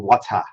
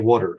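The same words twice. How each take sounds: First: It is said in a British accent. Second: It is said in his regional 'wooder' accent.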